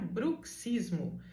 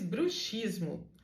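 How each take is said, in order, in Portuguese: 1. O x é pronunciado como ks. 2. O x é pronunciado como sh. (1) "vem ali um C S, que quer dizer que você deve pronunciar" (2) "todo mundo diz"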